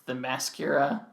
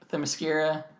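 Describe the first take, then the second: First: The ending rhymes with mascara. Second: The ending does not rhyme with mascara. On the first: "a long time ago I pronounced it Themyscira, like mascara" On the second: "I think I'm pronouncing that one right"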